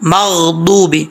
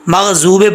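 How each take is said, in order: First: The middle consonant is the emphatic dad sound. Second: The middle consonant is a z sound. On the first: The speaker calls it right. "बौद मगदूबी पढ़ेंगे" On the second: The speaker calls it wrong. "मगजूबे पढ़ेंगे तब भी ये गलत है"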